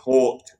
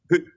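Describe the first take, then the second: First: The word rhymes with short. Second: The word rhymes with boot. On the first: The speaker calls it wrong. "We don't want to pronounce it Hort" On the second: The speaker calls it right. "it's Hoot, right?"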